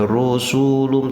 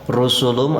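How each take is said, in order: First: One vowel is drawn out long. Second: All vowels are kept short. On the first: The speaker calls it wrong. "tidak boleh dipanjangkan, tidak boleh rusulum" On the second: The speaker calls it right. "awas tidak ada mad di sini"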